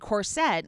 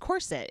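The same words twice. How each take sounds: First: The ending sounds like 'sette'. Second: The ending does not sound like 'sette'. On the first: The speaker calls it wrong. "all races are saying corset" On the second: The speaker calls it right. "when it's corset"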